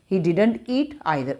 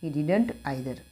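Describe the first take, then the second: First: Every word spaced slowly for writing; slow and clear for students to copy; slow dictation. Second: Said in the usual way. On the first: Shown as a demonstration. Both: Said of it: "he didn't eat और either लगा दो".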